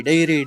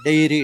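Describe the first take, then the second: No difference in how they are said.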